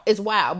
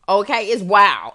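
First: Said in the usual way. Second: Whispered, drawn-out aside. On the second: Real, not acted. Host telling listeners the promo price is wild, whispered. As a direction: breathe it like a secret.

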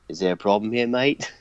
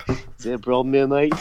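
First: Put-on a light Australian accent as Nathan Jones; lightly voiced Australian tough guy; Rocco impression. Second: Slightly stronger mock Australian accent; retry the Australian menace line; a hint of Australian enforcer; Australian tough guy. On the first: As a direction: ask it with a mock Australian twang. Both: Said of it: "I just sounded like Rocco".

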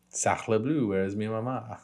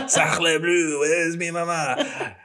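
First: Said in the usual way. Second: Mock French accent, high and slow; hammed-up French chef voice. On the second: Joking fake French phrase.

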